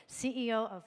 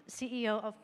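No difference in how they are said.

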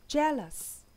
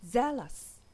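First: Jealous starting with a clear J, jeh-lus; J sound. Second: Zealous starting with a buzzing Z, zeh-lus; Z sound. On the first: Teacher contrasting jealous with zealous, J sound. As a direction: hit the J of jealous. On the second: Teacher contrasting zealous with jealous, Z sound. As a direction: buzz the Z of zealous. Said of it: "두 번째는 Z". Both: Shown as a demonstration.

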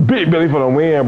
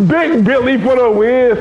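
First: Said in the usual way. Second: Slow, high, loud victory shout; too loud. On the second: Real, not acted. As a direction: bellow the win, drawn out. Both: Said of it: "too loud, man".

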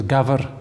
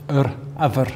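First: "gaffer" with its initial G pronounced; G sounded. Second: "yr afer" with no G before the vowel; G dropped. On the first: Teacher gives Welsh word for goat, "gaffer" with the G. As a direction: start "gaffer" on a clear G. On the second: Teacher shows Welsh mutation, "afer" without its G. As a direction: drop the G, starting "afer" on its vowel. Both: Shown as a demonstration. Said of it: "The G just drops".

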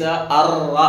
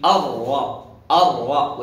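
First: الر with the r trilled several times; over-rolled raa. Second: الر with a heavy r tapped only once; single-tap raa. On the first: Teacher shows what to avoid, الر with repeated trill. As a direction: roll the r long in الر. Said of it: "وليس الر". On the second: Teacher models correct articulation, الر with one single tap. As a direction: say الر firmly without rolling the r. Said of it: "تكرر مرة واحدة فقط". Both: Shown as a demonstration.

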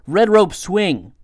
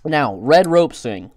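First: Careful articulation. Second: Said in the usual way. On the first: Real, not acted.

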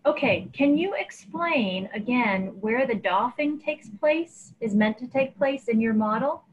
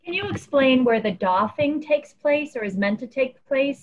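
First: Muffled, like a hand over mouth. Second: Repeated louder and clearer. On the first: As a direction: speak through a covered mouth. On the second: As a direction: push it out so it's heard. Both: Real, not acted. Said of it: "you're a little muffled".

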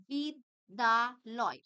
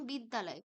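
First: বিদ্যালয় very slowly as বিদ, দা, লয়; split into syllables. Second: Said in the usual way. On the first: Shown as a demonstration. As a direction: break বিদ্যালয় into three loud, separated syllables. (বিদ্যালয় ধীরে দলে ভেঙে বলা) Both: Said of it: "আমি দল বিশ্লেষণ".

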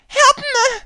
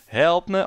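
First: Very high, loud squeal for help; falsetto princess. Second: Half-hearted cry for help, a bit high; a hint of a damsel calling; lightly voiced princess call. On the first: Acted. Princess calling for rescue, shrill falsetto. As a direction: shriek it like a hammed-up damsel. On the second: Princess calling for help, only lightly voiced.

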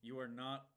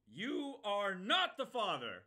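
First: Said in the usual way. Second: Loud, slow, higher declaration; mock dramatic shout. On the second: Streamer yelling a meme line at the game, hammed-up loud. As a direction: boom it like a talk-show reveal.

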